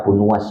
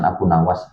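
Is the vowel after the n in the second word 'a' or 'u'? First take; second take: u; a. First: The second word has a 'u' sound after n. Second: The second word has an 'a' sound after n. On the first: The speaker calls it right. "Jadi bacanya Abu Nuwas" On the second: The speaker calls it wrong. "bukan Abu Nawas"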